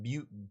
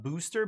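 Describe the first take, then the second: First: The vowel glides like an 'ew' sound. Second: The vowel is a plain 'oo' sound. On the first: "it's like B E W" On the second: "not booster"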